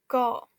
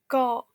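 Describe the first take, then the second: First: The final k is cut short, unreleased. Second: The same.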